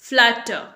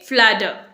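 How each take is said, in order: First: A British accent, with a clear t and no r. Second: An American accent, with the t sounding like d. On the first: "British English बोलना चाहेंगे तब आप इसे बोलेंगे फ्लैटर ... आर pronounce नहीं करेंगे" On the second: "American English में इसे बोलेंगे फ्लैडर। यहां पर टी जो है डी का साउंड देगा"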